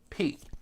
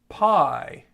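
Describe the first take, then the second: First: The vowel sounds like 'ee'. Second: The vowel sounds like 'eye'. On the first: This is the Greek pronunciation. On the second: This is the English pronunciation.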